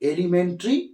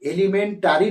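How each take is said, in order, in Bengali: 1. শেষ অক্ষরের আগের স্বরধ্বনিটি বাদ পড়ে যায়। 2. শেষ অক্ষরের আগের স্বরধ্বনিটি স্পষ্ট শোনা যায়। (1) "এখানে এ এ যে বর্ণটা এটা হচ্ছে সাইলেন্ট" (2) "এলিমেন্টারি নয়"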